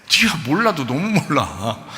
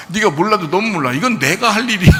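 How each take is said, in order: First: Said in the usual way. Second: Louder, higher scolding; a rising stern rebuke. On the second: Retold or imitated. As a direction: scold him like a frustrated teacher. Jesus rebuking Peter, repeated.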